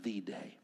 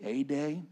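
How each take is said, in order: First: "the" given its full "thee" sound; stress on "the". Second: "a" given its full "ay" sound; stress on "a". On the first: Pastor repeating what it need not be, stress on "the". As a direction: make "the" stand out as "thee". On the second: Pastor repeating the point to the congregation, stress on "a". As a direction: make "a" stand out as "ay". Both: Shown as a demonstration.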